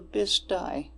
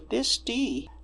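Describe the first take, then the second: First: The name is pronounced the local way. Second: The name is pronounced the non-local way. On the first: How people in the area say it. The speaker calls it right. "locally we say the Bisti" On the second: An outsider reading the name. The speaker calls it wrong. "she read the Bisti"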